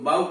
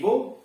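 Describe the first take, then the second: First: The vowel is an 'ow' sound. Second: The vowel is a long 'oh' sound. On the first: It names bending the head in greeting. The speaker calls it wrong. "कह दिया बाऊ तो बाऊ का मतलब लोग समझेंगे सर झुका के अभिवादन" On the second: It names a weapon for shooting arrows. The speaker calls it right. "धनुष तो कहना चाहिए बो"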